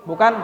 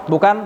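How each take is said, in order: The two takes are said the same way.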